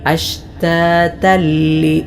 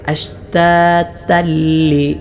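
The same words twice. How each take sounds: First: The n merges fully into a doubled l. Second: The n merges fully into a doubled l.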